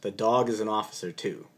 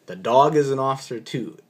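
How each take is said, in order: First: Deadpan officer. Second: A hint of officer insisting again; officer repeats. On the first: Retold or imitated. Officer answering the doctor, straight-faced deadpan. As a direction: say it dead serious, no smile. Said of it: "with a straight face, just like this". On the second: Officer repeating to the doctor, mild insistence. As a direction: restate it firmly. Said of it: "And he says".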